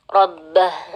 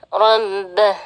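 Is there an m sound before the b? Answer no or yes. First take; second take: no; yes. First: The b is doubled with no m sound. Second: An extra m sound comes before the b. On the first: The speaker calls it right. "tapi langsung ke ba tasydid saja" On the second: The speaker calls it wrong. "biasanya ada tambahan huruf, eee, mim ya"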